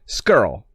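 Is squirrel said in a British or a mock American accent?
mock American. Squirrel is squeezed into one exaggerated nasal syllable. British actors are trying and failing to sound North American. "They always said skirl"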